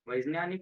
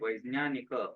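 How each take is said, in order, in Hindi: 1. यह बिना स्वर के शुद्ध k पर खत्म होता है। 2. यह पूरे छोटे a स्वर पर खत्म होता है।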